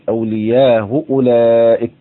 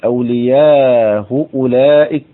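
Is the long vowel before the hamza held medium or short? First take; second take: short; medium. First: The long vowel is held briefly, two counts. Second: The long vowel is held longer, four counts. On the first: "تقديم وجه التوسط على وجه القصر" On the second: "تقديم وجه التوسط على وجه القصر"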